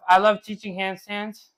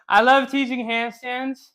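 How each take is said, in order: First: Said in the usual way. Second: Higher and slower, dwelling on love; really mean it this time, drawn out; emphatic gush. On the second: Shown as a demonstration.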